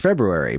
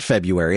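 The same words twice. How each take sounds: First: The word is said in full, every sound pronounced. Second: The word is said the common shortened way. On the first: The speaker calls it right. "it's February. But nobody says it properly" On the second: The speaker calls it wrong. "everyone says February, but it's not February"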